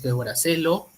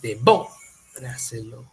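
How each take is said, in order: First: The stress is not on the second syllable. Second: The stress is on the second syllable. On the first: The speaker calls it wrong. "No es devoráselo" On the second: The speaker calls it right. "es de boráselo. Entonces la mayor fuerza de voz es acá"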